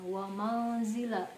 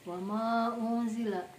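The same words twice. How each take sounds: First: The 'u' of unzila is merged or dropped. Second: The 'u' of unzila is pronounced clearly. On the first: The speaker calls it wrong. "bukan wama unzila gitu ya" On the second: The speaker calls it right. "unzilanya itu dibaca jelas, unzila, u-nya jelas"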